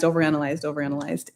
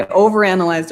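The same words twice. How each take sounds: First: Overanalyzed trailing off much softer; softly fading last repetition; fading to near silence. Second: Said in the usual way. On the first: Real, not acted. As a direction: let the repeated overanalyzed die away into nothing. Repeating the word, letting it fade.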